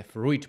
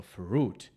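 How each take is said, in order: First: FRUIT read as spelled, the mistaken way; wrong pronunciation. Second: FRUIT drawn out slowly as "froot"; correct pronunciation. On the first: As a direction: say "fruit" as a learner guesses it from spelling. (špatná výslovnost „fruit“ podle pravopisu) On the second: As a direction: model "fruit" slowly with one long oo. (správná, pomalá výslovnost „fruit“) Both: Shown as a demonstration. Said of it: "No ne, je to fruit".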